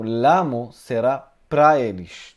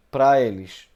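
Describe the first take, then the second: First: Pra punched, louder; teacher stressing pra, not eles. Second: Pra hit loud and firm; teacher correcting to pra eles; stress on pra. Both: Shown as a demonstration. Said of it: "não eles, pra eles".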